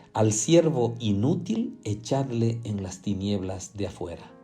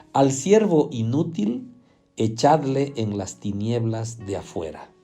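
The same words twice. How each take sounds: Both takes have the same delivery.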